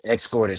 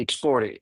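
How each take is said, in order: First: "escorted" restated with "scort", no t after the s; corrected "escorted". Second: "escorted" slipping into "ex-storted"; mispronounced "escorted". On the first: Answering a friend's correction, "escorted" restated with "scort". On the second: Explaining pool rules to friends, "escorted" coming out as "extorted". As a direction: say "escorted" with an "ext" start, like "extorted". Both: Real, not acted. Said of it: "Extorted or escorted?".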